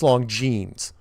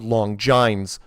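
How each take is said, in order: First: The name is pronounced differently from its spelling. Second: The name is pronounced just as it is spelled. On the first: The speaker calls it right. "But it's long it's Longines" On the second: The speaker calls it wrong. "it's spelled Longines"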